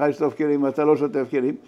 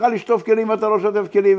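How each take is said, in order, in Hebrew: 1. זה נאמר בטון מאוכזב. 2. זה נאמר בצעקה בטון כועס. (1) "באכזבה" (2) "ולצעוק עליו"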